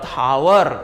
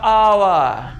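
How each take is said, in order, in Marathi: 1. या शब्दाची सुरुवात स्पष्ट 'h' आवाजाने होते. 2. या शब्दाची सुरुवात थेट स्वराच्या आवाजाने होते. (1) "पोरं काय करतात, हावर. पोरं हावर बोलतात" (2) "यचा उच्चार त्या ठिकाणी केला जात नाही, तो ओ पासून त्याचा उच्चार केला जातो"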